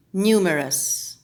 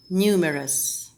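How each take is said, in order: First: Numerous said nyoo-merous; with a y glide. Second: Numerous said noo-merous; plain noo in Numerous; without a glide. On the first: Coach modelling numerous with a glide. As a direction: give numerous a nyoo sound. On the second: Coach modelling numerous without the glide. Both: Shown as a demonstration.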